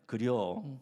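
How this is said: It sounds understanding.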